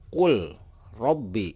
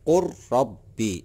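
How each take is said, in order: First: The l is pronounced separately before the r. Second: The l merges into a doubled r sound. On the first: The speaker calls it wrong. "Itu salah" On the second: The speaker calls it right. "Jadi ini tidak dibaca ya lam lamnya"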